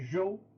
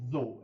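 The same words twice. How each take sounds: First: The name begins with a J sound. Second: The name does not begin with a J sound. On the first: The speaker calls it right. "Z H é um som de J" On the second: The speaker calls it wrong. "não é dinastia Zhou"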